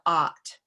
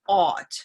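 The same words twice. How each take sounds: First: The vowel is the open vowel heard in sock. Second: The vowel is the rounded vowel heard in dog. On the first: "as opposed to" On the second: "this Auburn dog sound that some native speakers have in their dialect"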